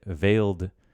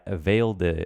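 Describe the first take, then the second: No difference in how they are said.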